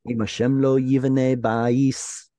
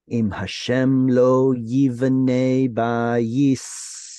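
First: The phrase is said at normal speed. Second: The phrase is said slowly. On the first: "is the way they sing it" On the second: "I'll say it slower"

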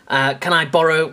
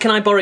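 First: It is said in a posh accent. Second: It is said in a plain accent.

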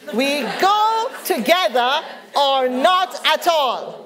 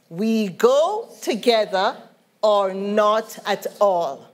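First: It is said loudly with strong conviction. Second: It is said in a plain, calm voice. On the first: "say it like you mean it" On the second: "Say that with me"

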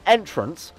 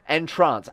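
First: The stress is on the first syllable. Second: The stress is on the second syllable. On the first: A way in or a doorway. The speaker calls it wrong. "Not entrance" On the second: To put someone in a trance. The speaker calls it right. "As in to put him in a trance and make him mesmerized by us"

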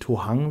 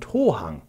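First: The stress is on the second syllable. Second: The stress is on the first syllable. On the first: The speaker calls it wrong. "wie ich gesagt habe" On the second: The speaker calls it right. "Die Betonung liegt nämlich auf dem O"

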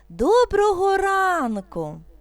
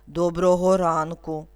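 First: The greeting sounds joyful and bright. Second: The greeting sounds angry and harsh. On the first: "Радісно" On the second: "Сердито"

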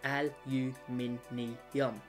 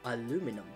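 First: It is the Australian form with five syllables. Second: It is the American form with four syllables.

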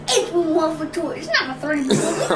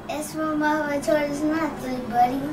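First: It is said loudly, like a wrestler. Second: It is said with little energy.

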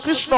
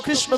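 No difference in how they are said.

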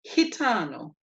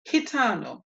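First: The G sounds like an H. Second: The G sounds like an H.

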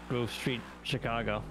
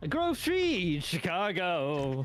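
First: It is said in an ordinary, plain speaking voice. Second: It is said in a loud, dramatic put-on voice. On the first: "I said it that way" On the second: "I heard it like the Blues Brothers"

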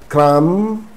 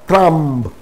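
First: The final b sound is silent. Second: The final b sound is pronounced. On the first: The speaker calls it right. "Pretend that B is not there" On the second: The speaker calls it wrong. "not crumb"

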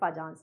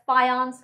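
First: The j is said like English j. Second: The j is said like English y. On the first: The speaker calls it wrong. "it's not Fajans rule" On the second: The speaker calls it right. "J is pronounced as Y"

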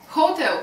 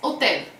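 First: The word begins with an audible h. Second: The word begins directly with the vowel.

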